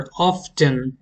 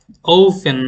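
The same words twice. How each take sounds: First: "often" as OF-ten, T pronounced; sounded-T often. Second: "often" as OH-fen, no T sound; silent-T often. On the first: Teacher models the American variant, sounded-T often. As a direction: say "often" with a clear T in the middle. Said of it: "আমেরিকানরা বলে often". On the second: Teacher models the British variant, silent-T often. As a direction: say "often" without the T, strong first syllable. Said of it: "ব্রিটিশরা বলে often". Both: Shown as a demonstration.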